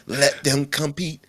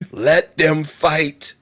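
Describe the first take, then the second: First: Slow, pitched-up film quote; movie line impression. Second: Slow, higher, louder film-quote voice; movie line impression. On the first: Friend adapting the movie line to competition, slow dramatic impression. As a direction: draw it out as a twisted movie line. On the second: Friend continuing the trend of badly used movie lines, drawn-out impression. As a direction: stretch each word like a dramatic movie line. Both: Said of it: "badly using movie lines".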